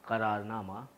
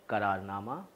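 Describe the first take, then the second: No difference in how they are said.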